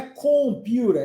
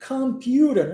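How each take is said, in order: First: "computer" with a rounded, full O in the first syllable; wrong full O. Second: "Computer" with an open, A-like first vowel; O sounded as A. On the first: Teacher showing learners what not to say, round O in "computer". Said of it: "não é computer". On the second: Teacher modelling the word for students, O said as A in "Computer". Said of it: "o O tem som de A". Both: Shown as a demonstration.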